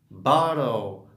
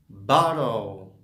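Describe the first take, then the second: No difference in how they are said.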